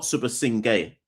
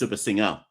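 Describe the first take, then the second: First: The name ends with a 'gay' sound. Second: The name ends with an 'er' sound. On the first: The speaker calls it wrong. "it's not" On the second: The speaker calls it right. "it's Subha Singer"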